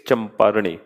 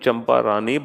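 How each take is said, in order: First: The name ends with a short retroflex 'rani'. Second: The name ends with a long 'raani' sound. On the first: The speaker calls it right. "But it's चंपारणी" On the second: The speaker calls it wrong. "I pronounced your name चंपारानी"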